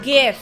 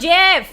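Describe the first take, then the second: First: It starts with a hard g sound. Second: It starts with a soft j sound. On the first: The speaker calls it right. "graphic. It's g-" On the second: The speaker calls it wrong. "It's not Jeff"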